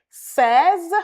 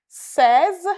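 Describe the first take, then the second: Both takes have the same delivery.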